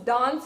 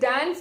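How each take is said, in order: First: It is said with a British pronunciation. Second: It is said with an American pronunciation. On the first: "dance is what British people pronounce it as" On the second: "dance is what Americans pronounce"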